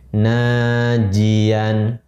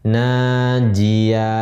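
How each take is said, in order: First: The word ends with an n sound. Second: The word ends on an open vowel. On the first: The reading continues without stopping. "menjadi najian" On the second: The reader stops on this word. "Kita wakafkan menjadi najia"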